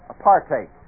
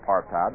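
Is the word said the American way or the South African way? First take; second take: South African; American. First: The word is said the South African way. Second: The word is said the American way. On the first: "The way the South Africans pronounce that word is apartheid" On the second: "We call it apartheid"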